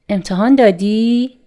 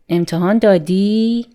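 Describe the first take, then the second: First: The voice rises at the end. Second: The same.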